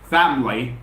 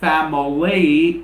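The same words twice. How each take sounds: First: The word is said with two syllables. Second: The word is said with three syllables. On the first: The speaker calls it right. "It has only two syllables" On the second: The speaker calls it wrong. "It's not family... the word family is not divided into three syllables"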